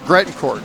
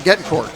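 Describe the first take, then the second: First: The name is said with the R sound. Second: The name is said without the R sound. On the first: The speaker calls it right. "So so it's Grettencourt" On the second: The speaker calls it wrong. "I was missing the R"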